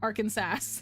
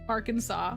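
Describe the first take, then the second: First: The ending sounds like the word 'Kansas'. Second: The ending sounds like 'saw', unlike Kansas. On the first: The speaker calls it wrong. "which is not pronounced Arkansas" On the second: The speaker calls it right. "it's said Kansas versus Arkansas"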